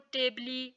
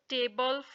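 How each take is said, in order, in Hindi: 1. इस शब्द के अंत में एक अतिरिक्त ee स्वर है। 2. यह शब्द l ध्वनि पर खत्म होता है। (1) "ऐसे नहीं पढ़ेंगे" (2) "बल्कि"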